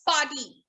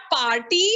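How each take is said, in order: First: "party" as pah-tee, falling; silent R. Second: "party" as par-tee, R sounded; wrong pronunciation. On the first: Teacher correcting the class, party with silent R. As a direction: drop the R from party. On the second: Teacher showing the mistake, party with a clear R. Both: Shown as a demonstration. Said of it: "The R is almost silent".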